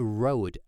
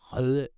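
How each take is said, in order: First: It sounds like the English word road. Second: It has a front rounded ø vowel. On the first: The speaker calls it wrong. "it's not a road, actually" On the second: The speaker calls it right. "It should be pronounced Röde"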